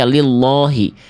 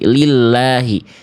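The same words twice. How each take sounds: First: The L is heavy and thick. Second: The L is light and thin. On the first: The speaker calls it wrong. "Kenapa nggak dibaca lillahi?" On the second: The speaker calls it right. "dia baru dibaca tipis"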